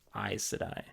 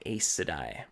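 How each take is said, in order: First: The first syllable sounds like 'eyes'. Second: The first syllable does not sound like 'eyes'. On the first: The speaker calls it right. "like eyes" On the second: The speaker calls it wrong. "I said Aes Sedai"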